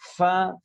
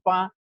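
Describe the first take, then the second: First: The consonant is a breathy f sound. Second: The consonant is a stopped p sound. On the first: The speaker calls it right. "Seperti contoh f, f, fa" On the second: The speaker calls it wrong. "tidak kita kurangi menjadi pa"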